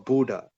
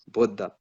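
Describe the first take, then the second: First: The name is said with a Western pronunciation. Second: The name is said with an Indian pronunciation. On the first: "That's how like what like Westerners would pronounce it" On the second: "in India, it's pronounced Buddha"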